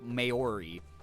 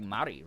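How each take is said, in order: First: The word gets an even more anglicized pronunciation. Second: The word is said closer to the Maori pronunciation. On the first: The speaker calls it wrong. "or way worse, there's people who say like" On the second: The speaker calls it right. "I think it's like Maori, right?"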